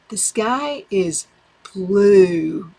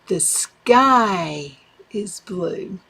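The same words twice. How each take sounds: First: The stress is on "blue". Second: The stress is on "sky".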